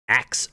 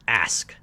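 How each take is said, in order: First: The k sound comes before the s sound. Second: The s sound comes before the k sound. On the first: The speaker calls it wrong. "some people have so much trouble pronouncing that" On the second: The speaker calls it right. "it's ask"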